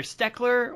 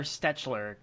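First: "Steckler" said with a hard K in the middle; "Steckler", the CH read as a K; hard CK pronunciation. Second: "Stetchler" said with CH as in "fetch"; "Stetchler", the middle softened to a tch sound; soft CH pronunciation. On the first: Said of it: "I hope I'm pronouncing that right". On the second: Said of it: "there's a C H in the middle". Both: Shown as a demonstration.

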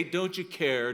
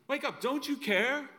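First: Said in the usual way. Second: High, pleading cry of the disciples. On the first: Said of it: "you still might say". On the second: Retold or imitated. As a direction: beg him to wake up. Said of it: "That's what they say".

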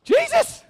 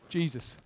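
First: Very high, loud scream of the name; wholehearted scream. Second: Low, soft utterance; quiet, low breath before an outburst; hushed name. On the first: Shown as a demonstration. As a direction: scream it with all your heart. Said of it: "let me just scream with all my heart". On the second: Real, not acted. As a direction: say it quietly, pitched well down. Soft take before the announced scream.

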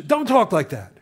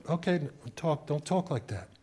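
First: Higher, louder mock rebuke; retold scolding. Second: Soft, subdued echo of a rebuke; retold meek compliance. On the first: Adult answers the frightened child, retold scolding. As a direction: act out an adult shutting a child up. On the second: Eight-year-old repeats the adult's rebuke, meek and soft. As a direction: repeat it softly, as a child giving in.

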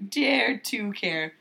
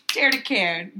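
First: Slowly drawn-out slogan; slow mock slogan. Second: Mock slogan. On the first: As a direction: stretch "Dare to care" out slowly, mock-earnest. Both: Shown as a demonstration.

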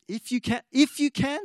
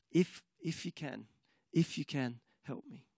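First: Pitched up, incredulous repeat; Jesus indignantly echoing the doubting father. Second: Soft, fading hesitant plea; father doubting, pleading with Jesus, despairing and soft. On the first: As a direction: throw the father's words back in disbelief. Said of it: "see the indignation in his voice". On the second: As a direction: trail off into defeated doubt. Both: Retold or imitated.

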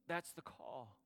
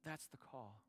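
First: Said in the usual way. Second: "That's the call" repeated softer, almost to himself; soft, settling repeat of "That's the call"; quiet echo. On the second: Real, not acted. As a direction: let "That's the call" fall away softly. Repeated closing line, softer.

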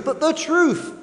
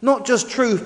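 First: "the" lifted very high and leaned on before "truth"; stress on THE. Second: Said in the usual way. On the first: Shown as a demonstration. Preacher to congregation, punching "the" before truth. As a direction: hit "the" hard so it means the only truth.

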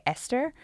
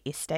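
First: Esther said the American way, ending in a clear r sound; Americanized. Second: Esther said her native way, ending without an r sound; own accent. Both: Shown as a demonstration. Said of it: "slightly Americanizing the way that I say it".

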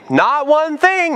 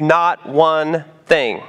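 First: Not one thing pitched high and slowed; emphatic not one thing. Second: Not one thing drawn out very slowly, stress on not; slow right down on not one thing; slow emphatic not one thing. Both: Shown as a demonstration. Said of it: "It's put there for emphasis".

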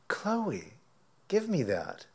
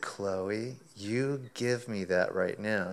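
First: High, sing-song coaxing of the dog; high coaxing call to a dog. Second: Slow, firm scolding of a dog; slow stern order to the dog; stern command. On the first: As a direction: sweetly coax the pet to let go. Coaxing the dog to drop steak. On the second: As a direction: lay down the law, slowly. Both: Retold or imitated.

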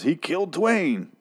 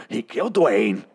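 First: Raised pitch, drawn out slowly; high slow delivery. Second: Said in the usual way. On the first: Retold or imitated. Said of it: "Morgan, um, accidentally, um, says".

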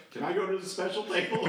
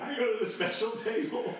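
First: Put-on high, excited kid's plea; eager begging. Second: Put-on even higher, pushier kid's plea; more eager begging. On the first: Camper pestering his counselor, excited high plea. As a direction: beg like a thrilled camper. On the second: Camper pestering his counselor again, higher excited plea. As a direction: push the plea up a notch.

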